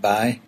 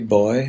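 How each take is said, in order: First: The vowel glides from 'ah' to 'ee'. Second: The vowel glides from 'o' to 'ee'. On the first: "only we pronounce it bye" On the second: "I tend to say boy a lot"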